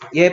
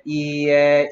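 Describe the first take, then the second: First: It is said quickly, merging into one syllable. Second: It is said slowly, with two clear syllables.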